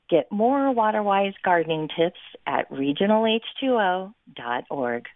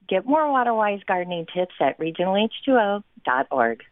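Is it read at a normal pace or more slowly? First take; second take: slowly; normal. First: It is read more slowly. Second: It is read at a normal pace.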